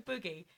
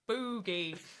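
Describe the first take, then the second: First: It is said at normal speed. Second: It is said slowly and drawn out.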